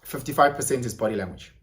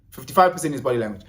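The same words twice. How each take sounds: First: Said in the usual way. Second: Quick throwaway repeat; fast. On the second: Shown as a demonstration. Repeating the fact to viewers, rushed. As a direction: rattle it off fast. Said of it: "repeat faster".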